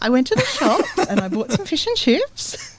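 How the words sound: The voice rises at the end.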